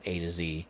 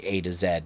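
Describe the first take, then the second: First: The final letter is pronounced zee. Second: The final letter is pronounced zed. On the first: This is not how the speaker thinks of it. "not A to Z" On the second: This is how the speaker thinks of it. "I'm Canadian. I say Zed"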